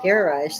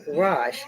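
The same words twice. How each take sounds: First: It is said the British way. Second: It is said the American way. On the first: "is what they say" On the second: "We say garage"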